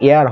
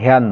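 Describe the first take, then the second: First: The word begins with a vowel sound. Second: The word begins with an h sound. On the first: The speaker calls it right. "এখানে উচ্চারণ কিন্তু এয়ার হবে" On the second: The speaker calls it wrong. "হেয়ার নয়"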